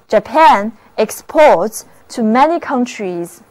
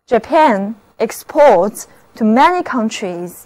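No difference in how they are said.

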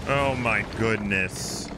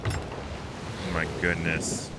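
First: Slow, drawn-out, lower but at normal level; slow dismay. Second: Slow, far softer and lower breathy-free murmur; hushed dismay. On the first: Repeating it to chat, slow drawn-out disbelief. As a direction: stretch each word in disbelief. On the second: Staring at the ghost ships, hushed slow dismay. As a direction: let it drain out of you, barely voiced. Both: Real, not acted.

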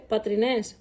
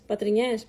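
First: Πατρινές said hesitantly, stress on the last syllable -νές; a tentative first guess at πατρινές; first try at the word. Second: Self-correct to πατρινιές; corrected form. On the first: Trying πατρινές, unsure which form the Patras friends use. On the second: Fixing the word to πατρινιές for the friends from Patras. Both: Shown as a demonstration. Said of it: "πώς το λένε σωστά".

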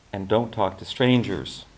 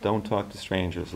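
First: Lightly twangy Southern warning; operator's parting advice with a hint of twang; twangy raspy operator. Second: Softer, understated echo to herself; softly thinking back on the operator's warning; inward thought. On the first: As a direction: warn in a smoker's twang. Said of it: "twangy accent and a smoker's raspy voice". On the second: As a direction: repeat it quietly, as a private thought. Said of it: "Elizabeth thought as she hung up". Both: A narrator's reading.

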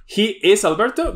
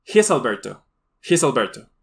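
First: "He is Alberto" with is said fully; full words, not joined; full form. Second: "He is" run together as he's; contracted form. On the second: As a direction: join he and is into one. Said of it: "Solo estoy reduciendo". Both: Shown as a demonstration. Teacher contrasting full and reduced forms for students.

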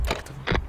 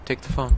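First: Breathy whisper, no voice at all. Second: Said in the usual way. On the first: Shown as a demonstration. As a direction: hush it like a secret. Repeating the character's line.

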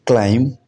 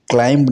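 First: क्लाइंब said claim, no b; क्लाइंब ending on m; silent b. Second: क्लाइंब said climb with the b sounded; क्लाइंब with a final b; wrong b sounded. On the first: Teacher shows क्लाइंब said claim, silent b. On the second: Teacher shows the wrong क्लाइंब with a b. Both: Shown as a demonstration. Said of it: "क्लाइंब नहीं पढ़ा जाना चाहिए".

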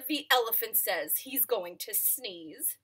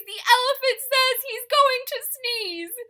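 First: Said in the usual way. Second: Very high, loud bird voice; high bird alarm. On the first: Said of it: "same line higher earlier". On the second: Acted. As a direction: shriek the news to the bees. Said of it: "same line plainer later".

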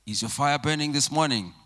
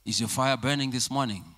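The two takes are said the same way.

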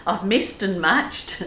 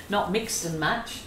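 First: Laughing at slip. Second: "mixed" said clearly, laughing; correcting the slip. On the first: Real, not acted. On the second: Shown as a demonstration. Painter laughing as she corrects "missed" to "mixed". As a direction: fix the word to "mixed".

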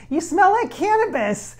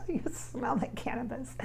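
First: Amused. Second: Secretive, giggly whisper; hushed conspiratorial whisper, much softer. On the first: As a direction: blurt it out with a grin, laughing. Laughing at spirit's scent. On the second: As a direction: lean in and whisper it like a naughty secret. Repeats the line as a secret. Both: Real, not acted.

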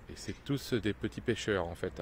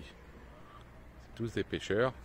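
First: Said in the usual way. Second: Slow, hushed whisper of a correction; slow whispered self-correction; whispered aside. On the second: Real, not acted. Corrects own wording, drops to aside.

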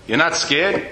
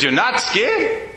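First: Said in the usual way. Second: Drawn-out incredulous repeat, rising at the end; the woman repeats her question slowly, in disbelief; slow disbelieving question. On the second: Retold or imitated. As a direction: ask it again slowly, as if you can't believe it.

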